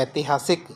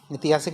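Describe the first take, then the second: First: ऐतिहासिक started with a wide ai; correct pronunciation. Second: ऐतिहासिक started with a narrow i or e; wrong pronunciation. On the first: Teacher answers with the right word, correct pronunciation. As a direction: widen the first vowel of ऐतिहासिक to ai. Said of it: "क्या होता है". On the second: Teacher repeats the error to reject it, wrong pronunciation. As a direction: keep the first vowel of ऐतिहासिक narrow. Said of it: "ऐतिहासिक नहीं होता". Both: Shown as a demonstration.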